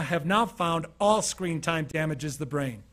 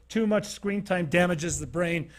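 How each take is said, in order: First: "all screen time damages the brain" said slowly, with "all" hit hardest and falling; stress on ALL. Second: "too much screen time damages the brain" said slowly, with the weight on "too much"; stress on too much. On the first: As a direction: correct the claim by punching "all" slowly. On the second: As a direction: lean slowly on "too much", then let the rest fall. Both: Shown as a demonstration. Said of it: "Actually, they now".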